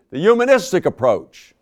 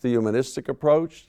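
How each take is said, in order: First: Loud, high re-enacted shout; raised voice, pitched well up. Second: Said in the usual way. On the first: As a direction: shout it as an exasperated answer. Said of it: "He shouted". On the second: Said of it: "I asked".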